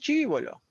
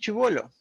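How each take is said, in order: First: It is said in a jungle accent, stress shifted. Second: It is said in a neutral regional accent. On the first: "Le cambia, le cambia el- la sílaba tónica y lo mueve a otro lado" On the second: "no hay mucha variación en mi pronunciación"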